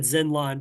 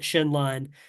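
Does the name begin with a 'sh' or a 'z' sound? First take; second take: z; sh. First: The name begins with a 'z' sound. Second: The name begins with a 'sh' sound. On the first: This is how the speaker always said it. "I've always said Zenlong" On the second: This is how the game's voice acting says it. "they pronounce it Shenlong in the voice acting"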